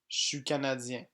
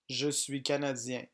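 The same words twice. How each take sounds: First: 'Je suis' is reduced to 'chu'. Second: 'Je suis' is pronounced in full. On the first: "est prononcé chu ou chui" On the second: "Français écrit"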